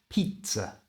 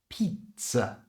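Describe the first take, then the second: The two takes are said the same way.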